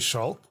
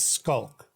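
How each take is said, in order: First: The name is said the German way. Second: The name is said with a K sound. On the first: "if you ask a German person to pronounce it just based on the letters, they will say Schalk" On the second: "the way we pronounce it is the C H becomes a K"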